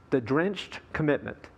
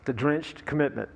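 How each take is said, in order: First: Drenched said with weight, commitment falling away; stress on drenched. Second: Commitment given the weight, drenched lighter; stress on commitment. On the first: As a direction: lean on the word drenched. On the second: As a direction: land the phrase on commitment. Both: Shown as a demonstration.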